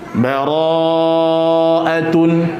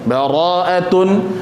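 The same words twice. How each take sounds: First: The vowel after the r is held long. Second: The vowel after the r is cut short. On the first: The speaker calls it right. "ra-nya panjang" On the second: The speaker calls it wrong. "orang membaca ra-nya pendek"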